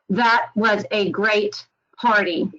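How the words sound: It is said flatly, like a computer voice. It does not show that the party was good. The speaker calls it wrong. "Sounds kind of flat"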